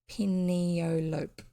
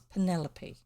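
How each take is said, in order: First: The name is said as a childhood misreading. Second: The name is said the standard way. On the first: This is how the letters first seemed to read. The speaker calls it wrong. "I thought the name Penelope was Penelope because the way my brain put the letters together" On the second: This is the accepted pronunciation of the name. The speaker calls it right. "or it's not, it's Penelope"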